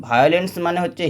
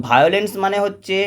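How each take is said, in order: No difference in how they are said.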